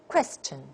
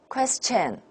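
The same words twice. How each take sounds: First: The first syllable is clearly stronger, English rhythm. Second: Both syllables get equal weight, Chinese rhythm.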